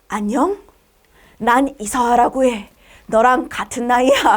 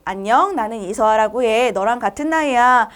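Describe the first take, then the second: First: The voice sounds sultry and seductive. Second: The voice sounds pure and innocent. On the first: "농염한 말투로" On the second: "이번엔 청순한 말투로"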